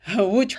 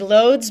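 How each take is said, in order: First: The name is said the native Polish way. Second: The name is read as its spelling suggests. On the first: The speaker calls it right. "but it's pronounced Łódź" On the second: The speaker calls it wrong. "It looks like Lodz"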